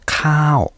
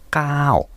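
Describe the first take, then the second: First: The k is said with a puff of air. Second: The k is said without a puff of air. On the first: "有気音でカーオ、カーオ、こういうふうに言うとご飯です" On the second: "無気音にしまして"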